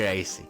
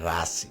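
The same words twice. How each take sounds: First: It is said with an English pronunciation. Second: It is said with a French pronunciation. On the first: The speaker calls it wrong. "you don't say racing" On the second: The speaker calls it right. "You say Racing"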